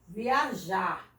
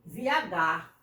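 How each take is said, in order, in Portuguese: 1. A consoante do meio é um som de zh suave. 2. A consoante do meio é um som de g forte. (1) "o verbo é viajar, é com J" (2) "Se você botar com G, fica viagar. Não pode"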